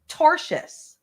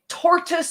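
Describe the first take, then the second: First: It is said with a 'sh' sound, torshus. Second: It is said like the animal, tortoise. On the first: The speaker calls it right. "she means tortious" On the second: The speaker calls it wrong. "she doesn't know how to pronounce it"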